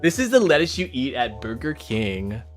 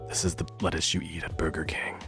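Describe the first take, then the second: First: It is read in a plain, ordinary way. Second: It is read in a creepy, freaky way.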